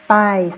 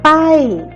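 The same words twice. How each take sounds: First: The word is said on a level mid tone. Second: The word is said with a falling tone. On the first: "le ton normal c'est paille" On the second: "c'est descendre"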